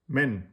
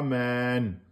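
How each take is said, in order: First: The vowel is held for only one count. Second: The vowel is drawn out over two counts. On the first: The speaker calls it right. "vous mettez le tenwin, mais en un temps" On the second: The speaker calls it wrong. "C'est pas men. Non"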